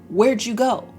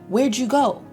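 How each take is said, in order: No difference in how they are said.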